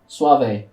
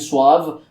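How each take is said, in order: First: The word is pronounced with a Spanish accent. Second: The word is pronounced with an English accent. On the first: The speaker calls it right. "that's how it's actually said in Spanish" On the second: The speaker calls it wrong. "that's how you people pronounce it when you speak English"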